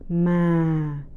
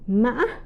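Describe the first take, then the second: First: The pitch starts low and falls further. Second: The pitch rises high with a break midway. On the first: "the falling tone" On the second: "tumbling or high broken tone"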